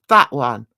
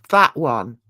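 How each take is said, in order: Both takes have the same delivery.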